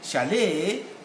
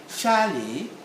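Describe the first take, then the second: First: The stress is on the second syllable. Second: The stress is on the first syllable. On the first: This is the American pronunciation. "Chalet is American sound" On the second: This is the British pronunciation. "Chalet is British sound"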